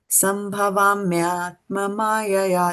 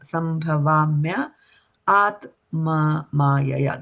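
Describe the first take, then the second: First: The words run together without breaks. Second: The words are split apart with breaks. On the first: "When you're reciting the full one" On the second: "when we are breaking down"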